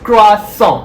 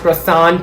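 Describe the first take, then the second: First: The word is said with French sounds. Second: The word is said with English sounds. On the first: The speaker calls it right. "It's croissant. As simple as that" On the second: The speaker calls it wrong. "not croissant"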